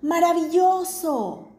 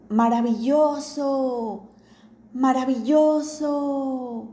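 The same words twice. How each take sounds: First: High, drawn-out joyful shout; the father shouts into the cave to show his son; father's shout. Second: Slow, ringing repeat of the shout; the cave echoes the father's shout back. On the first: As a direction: call it out with delight into the cave. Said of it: "el papá gritó". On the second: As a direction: let it come back from the cave walls. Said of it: "Y el eco repitió". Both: Acted.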